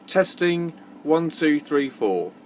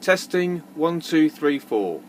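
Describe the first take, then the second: No difference in how they are said.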